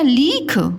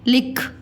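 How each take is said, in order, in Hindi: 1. पहले अक्षर का स्वर लंबा है। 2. पहले अक्षर का स्वर छोटा है। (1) "हम बोलते हैं लीख कि लिख बोलते हैं"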